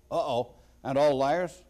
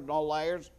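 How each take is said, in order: First: "all" lifted and stretched, tune rising, knowing tone; stress on ALL. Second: Said in the usual way. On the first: Shown as a demonstration. Preacher warns the congregation that liars are included, leaning on "all".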